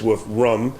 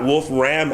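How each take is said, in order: First: The name is pronounced in a German way. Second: The name is pronounced in an English way. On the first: The speaker calls it right. "It's a German word" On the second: The speaker calls it wrong. "it's not Wolfram Alpha"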